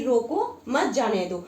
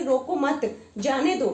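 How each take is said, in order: First: रोको alone, break, then मत जाने दो; slow, with a comma pause between रोको and मत; pause after रोको. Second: रोको मत together, break, then जाने दो; group रोको with मत, pause, finish जाने दो; pause after मत. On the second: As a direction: comma pause between मत and जाने. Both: Shown as a demonstration. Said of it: "बोलते समय इसी तरह रुकना पड़ता है".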